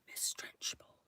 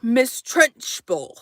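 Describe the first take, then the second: First: A soft breathy whisper of Miss Trenchbull. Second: Said in the usual way. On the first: Shown as a demonstration. Whispered repeat of name.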